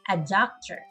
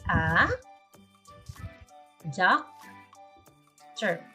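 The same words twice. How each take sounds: First: It is said fast. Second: It is said slowly.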